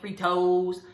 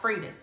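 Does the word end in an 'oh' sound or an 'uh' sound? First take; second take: oh; uh. First: The word ends in a long 'oh' sound. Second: The word ends in a short 'uh' sound. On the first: "I don't eat Fritos. That is so much extra to me" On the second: "We eat Fritas around here"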